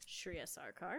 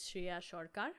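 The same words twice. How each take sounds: First: The name has an English pronunciation. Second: The name has a South Asian pronunciation. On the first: This is the version adapted for English speakers. "the anglicized version" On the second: This is how the family says the name. "the way that our parents say it"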